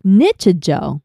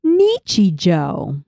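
First: "Nichijou" misread as NITCH-uh-joh; slowed "Nichijou", first syllable like "nitch"; TikTok lady's mispronunciation. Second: Slow "Nichijou" with a long ee in "Nichi"; "Nichijou" drawn out, vowels kept full; TikTok voice lady. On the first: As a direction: say "Nichijou" with short, English-style vowels. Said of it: "she would probably say". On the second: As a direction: stretch "Nichijou" out as NEE-chee-joh. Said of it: "impression of the TikTok voice lady". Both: Shown as a demonstration.

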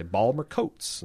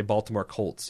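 First: Baltimore accent, "Balmer" in two syllables, "Coats" without the L; attempted Baltimore accent on Balmer Coats. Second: Said in the usual way. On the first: Shown as a demonstration. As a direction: squeeze it into local Baltimore speech. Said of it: "that's the most accent I can get". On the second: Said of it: "I can say Baltimore Colts".

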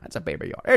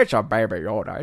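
First: Said in the usual way. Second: Lightly put-on cutesy voice with distorted vowels; silly baby talk. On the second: Streamer teasing a viewer over a name, silly baby talk. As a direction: coo it in mock baby talk.

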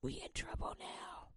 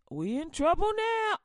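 First: Much softer and lower, breathed out; We in trouble now whispered in dread; We in trouble now hushed to a whisper; scared whisper. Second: Louder, higher cry of alarm; We in trouble now shouted in panic; We in trouble now yelled out loud. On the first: Same line, now whispered. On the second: Panic, then same line whispered. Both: Acted.

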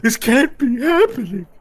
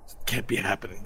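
First: High, loud, hammed-up wail; squealing tearful denial; crying. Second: Low, soft disbelief; hushed, crushed denial; stunned muttering. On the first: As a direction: wail your disbelief through mock sobs. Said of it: "Megan's crying". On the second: Acted. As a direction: mutter it to yourself in defeat. Beaten fighter mutters in disbelief.

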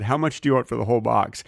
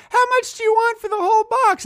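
First: Said in the usual way. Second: Put-on high squeaky little kid bargaining; a small eager kid asking the price, way up high. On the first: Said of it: "And I said". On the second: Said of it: "And I'd go".

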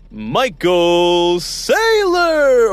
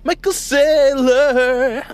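First: High, very slow stretched name; drawn-out announcer call. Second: Much higher, very slow, drawn-out name; high stretched call. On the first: Host introducing his guest in a drawn-out high call. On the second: Host re-announcing the guest in a bigger, higher call. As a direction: sing the name out even bigger. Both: Shown as a demonstration. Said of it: "or as I always say".

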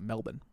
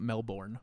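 First: "Melbourne" as MEL-bun, ending swallowed; local pronunciation. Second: "Melbourne" with a full BORN ending; American pronunciation. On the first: Showing friends how locals say the city, local pronunciation. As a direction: say "Melbourne" with no R, short second syllable. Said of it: "is how they say". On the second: Showing friends how not to say the city, spelled-out pronunciation. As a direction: say "Melbourne" as mel-BORN, R sounded. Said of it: "not Melbourne". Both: Shown as a demonstration.

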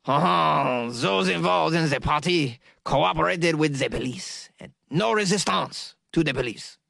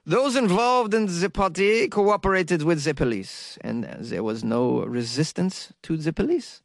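First: Exaggerated French accent, opening on a drawn-out "Oh". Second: Slow, badly missed French accent; botched French accent. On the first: Podcaster retrying the police quote in a hammed-up French accent. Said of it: "Let me try it again". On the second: Podcaster quoting French police in a botched French accent. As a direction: attempt a French accent and miss. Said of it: "a French accent, though. I screwed that up". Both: Shown as a demonstration.

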